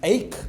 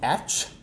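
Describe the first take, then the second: First: The word ends with a 'k' sound. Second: The word ends with a 'ch' sound. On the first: This is how the word is actually read. The speaker calls it right. "A C H E is ache" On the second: This follows the regular spelling rule. The speaker calls it wrong. "not atch"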